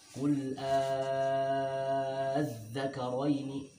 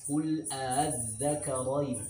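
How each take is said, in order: First: The opening vowel is held long and smooth. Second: The vowel is split by a soft, unclear catch. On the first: "memanjangkannya dengan enam harokat" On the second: "Namanya tashil"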